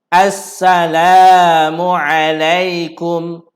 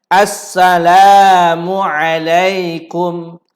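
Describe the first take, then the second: Both takes have the same delivery.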